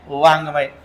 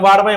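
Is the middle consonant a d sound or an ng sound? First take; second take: ng sound; d sound. First: The middle consonant is a nasal ng sound. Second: The middle consonant is a plain d sound. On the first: The speaker calls it right. "अनुनासिक त्याचा उच्चार काय?" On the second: The speaker calls it wrong. "वाडमय म्हणायचं नाही"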